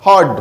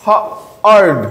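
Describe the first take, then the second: First: হড as one joined syllable; blended word. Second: হ, pause, আর্ড in two pieces; sounded out. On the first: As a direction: say হড whole, without a break. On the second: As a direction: split off হ before আর্ড. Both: Shown as a demonstration. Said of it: "একই রকম similar উদাহরণ".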